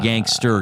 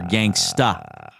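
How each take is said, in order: First: The word ends with an r-colored 'er' sound. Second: The word ends with an open 'uh' sound. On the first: The speaker calls it wrong. "Not gangster" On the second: The speaker calls it right.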